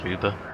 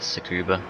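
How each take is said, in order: First: The name is said in a short, clipped form. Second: The name is said with every syllable fully. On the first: This is how the name is really said. "I think it's actually pronounced" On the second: This form is chosen because it sounds better. "I'm going to pronounce it Tsukuba because it sounds better"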